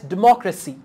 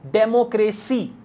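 First: The second syllable gets clear, strong stress. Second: All four syllables get equal, flat stress. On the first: The speaker calls it right. "Actually, we pronounce this word as democracy" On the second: The speaker calls it wrong. "some people say democracy. Now in democracy, you are not using the stress pattern"

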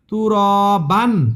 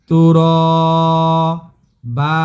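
First: The word ends with an n sound. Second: The word ends with a lengthened vowel. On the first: The speaker calls it wrong. "এটা হবে না।" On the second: The speaker calls it right. "এখানে এক আলিফ টান দিবেন আর একটা জবর উচ্চারণ করবেন"

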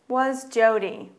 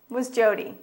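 First: It is said at a slower pace. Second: It is said at a faster pace.

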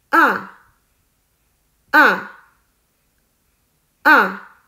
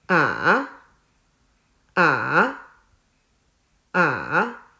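First: The pitch falls sharply from high to low. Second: The pitch dips low, then rises. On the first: "第四声也叫做去声，声音是向下" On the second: "第三声也叫做上声，声音是先向下，再向上"

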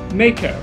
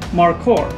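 First: It is said with the common English pronunciation. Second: It is said with the Maori pronunciation. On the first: The speaker calls it wrong. "instead of mako" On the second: The speaker calls it right. "The proper pronunciation is markor"

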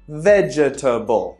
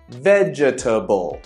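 First: Every syllable of the word is pronounced in full. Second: Every syllable of the word is pronounced in full.

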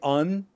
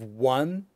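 First: The word begins with a vowel, no w. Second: The word begins with a clear w sound. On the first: The speaker calls it wrong. "sometimes they'll say un instead of one" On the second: The speaker calls it right. "they have a w sound, a w sound at the beginning"

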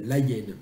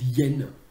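First: The full article is said before the noun. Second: The article's vowel is elided into the noun. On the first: This is the everyday usage. The speaker calls it wrong. "tout le monde dit les hyènes, la hyène" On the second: This is the prescribed standard form. The speaker calls it right. "en bon français ... normalement on dit l'hyène"

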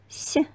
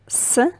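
First: The consonant is soft and palatalized. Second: The consonant is hard, not palatalized. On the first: "then soft consonant" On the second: "First, hard consonant"

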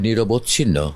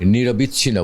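First: No i vowel follows nirob before chhinno. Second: An i vowel follows nirob before chhinno. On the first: The speaker calls it right. "কথাটা হবে নিরবচ্ছিন্ন" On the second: The speaker calls it wrong. "যেমন নিরবিচ্ছিন্ন বলে"

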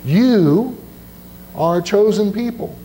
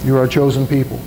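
First: It is read slowly. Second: It is read at normal speed.

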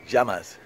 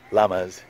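First: The word begins with a Y-like sound. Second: The word begins with a plain L sound. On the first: The speaker calls it right. "They corrected me" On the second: The speaker calls it wrong. "Not llamas"

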